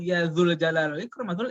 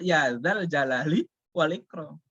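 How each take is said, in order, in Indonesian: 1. Kata kedua punya vokal u. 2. Kata kedua punya vokal a.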